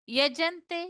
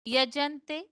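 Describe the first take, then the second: The two takes are said the same way.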